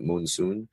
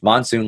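First: The first syllable has a long oo vowel. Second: The first syllable has a short o vowel. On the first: The speaker calls it wrong. "they pronounce it moonsoon" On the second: The speaker calls it right. "It's monsoon, like the weather pattern"

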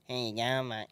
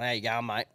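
First: It is said in a mocking imitation. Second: It is said as a sincere, friendly greeting.

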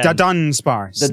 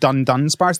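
First: The first syllable has no n sound. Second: The first syllable ends with an n sound. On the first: The speaker calls it right. "There's no first N" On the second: The speaker calls it wrong. "Everybody's been saying Dundunsparce"

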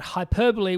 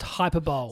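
First: The word has its standard English pronunciation. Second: The word is pronounced with Spanish-style vowels. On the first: The speaker calls it right. "hyperbole was not pronounced" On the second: The speaker calls it wrong. "not pronounced hyperbole"

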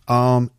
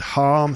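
First: The word begins without an h sound. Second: The word begins with an h sound. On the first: "It would be arm" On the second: "We've got the word harm"

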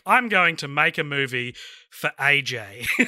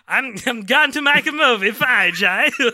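First: It is said in the speaker's normal voice. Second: It is said in a put-on character voice.

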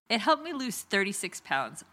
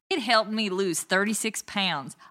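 First: It is said in the speaker's ordinary accent. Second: It is said in a put-on Dallas accent.

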